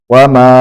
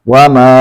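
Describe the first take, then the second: No difference in how they are said.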